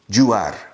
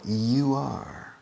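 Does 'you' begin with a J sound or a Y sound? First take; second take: J sound; Y sound. First: The word you begins with a J sound. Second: The word you begins with a Y sound. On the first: The speaker calls it wrong. "You convert the Y into an English J" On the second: The speaker calls it right.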